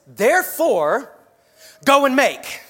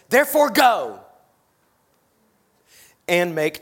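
First: The speaker pauses right after the word therefore. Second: The speaker pauses right after the word go. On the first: As you go about life, make disciples. The speaker calls it right. "But it reads like this" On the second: You must first go somewhere before doing anything. The speaker calls it wrong. "So many times I read it like this"

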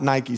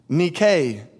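First: The word is pronounced the common English way. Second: The word is pronounced the ancient Greek way. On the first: The speaker calls it wrong. "not Nike" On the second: The speaker calls it right. "it would have been pronounced in the Greek"

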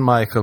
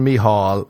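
First: The name is said in the usual English way. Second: The name is said with an Irish pronunciation.

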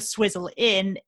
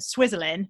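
First: Inn is said clearly as a separate word. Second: Inn runs together with Swizzle as one word. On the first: The name refers to a pub. The speaker calls it right. "the Swizzle Inn as in pub" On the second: The name does not refer to a pub. The speaker calls it wrong. "rather than Swizzle Inn, which is sort of how I've always said it"

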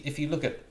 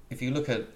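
Both takes have the same delivery.

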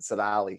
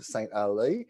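First: The name is run together as one word, Sonali. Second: The name is said as two words, Saint Ali.

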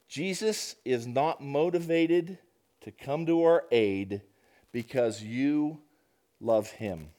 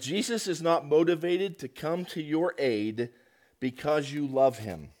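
First: It is read at a slower pace. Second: It is read at a normal pace.

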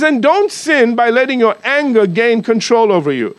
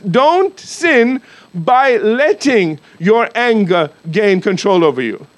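First: It is read at a normal pace. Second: It is read slowly.

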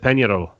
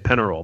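First: The name is said with a Spanish pronunciation. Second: The name is said with an American pronunciation. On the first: "not even pronounced it correctly" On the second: "You can Americanize it and say Peñarol"

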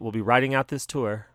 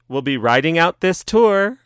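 First: The slogan is said in a sad tone. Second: The slogan is said in an upbeat tone.

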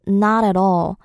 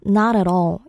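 First: Linked smoothly with soft, flapped T sounds. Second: Linked smoothly with soft, flapped T sounds.

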